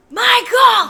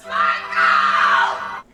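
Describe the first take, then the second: First: High, loud shout of a name; imitated yell. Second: Low, loud drawn-out roar; imitated yell. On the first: Heroine hunting the killer with an axe, imitated yell. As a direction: holler it like the movie heroine. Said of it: "She goes". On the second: Heroine with fire axe calling the killer out, imitated yell. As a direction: bellow the name long and deep. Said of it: "and she yells".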